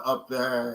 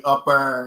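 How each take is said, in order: First: Said in the usual way. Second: "up there" said the Kentucky way; Kentucky accent. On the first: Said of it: "instead of up there". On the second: Shown as a demonstration. Showing viewers how home folk talk, Kentucky accent. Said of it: "I mean, accent. We'll say".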